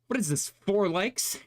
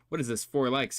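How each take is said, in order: First: It is read in a put-on character voice. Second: It is read in the speaker's plain voice.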